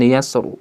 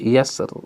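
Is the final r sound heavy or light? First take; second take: heavy; light. First: The final r is thick and heavy. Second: The final r is thin and light. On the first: The speaker calls it wrong. "bukan yasr" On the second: The speaker calls it right. "dipilih di sini tarkik"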